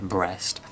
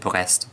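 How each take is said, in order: First: The name is said with English pronunciation. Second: The name is said with French pronunciation. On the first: This is said for comic effect. "it's funnier to pronounce it Brest" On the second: This is how the name is properly said. "I know I should pronounce it Brest"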